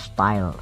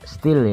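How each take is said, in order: First: The vowel sounds like 'eye', as in style. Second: The vowel sounds like 'ee', as in steel. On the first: It is read as the intended brand name. "tapi mungkin dibacanya style" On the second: It is read the way it is written. "Tulisannya ya steel ya"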